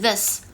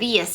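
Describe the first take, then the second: First: The word begins with a standard th sound. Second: The word begins with an altered first sound. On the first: The speaker calls it right. "是 this" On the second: The speaker calls it wrong. "不是 this"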